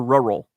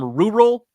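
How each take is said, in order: First: It is said in a plain American way. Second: It is said in a British-sounding way.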